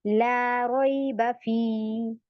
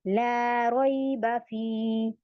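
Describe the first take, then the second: Both takes have the same delivery.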